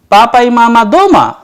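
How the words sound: The voice rises at the end.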